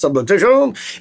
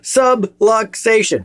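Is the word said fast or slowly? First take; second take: fast; slowly. First: The word is said fast. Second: The word is said slowly.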